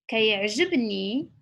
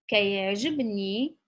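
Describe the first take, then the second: Both takes have the same delivery.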